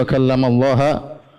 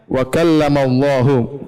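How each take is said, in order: First: The word Allah ends with an a vowel. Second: The word Allah ends with a u vowel. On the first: Allah is the object; Moses spoke to Allah. The speaker calls it wrong. "mereka rubah jadi wa kallamallaha" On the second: Allah is the subject who spoke to Moses. The speaker calls it right. "Padahal ayatnya wa kallamallahu"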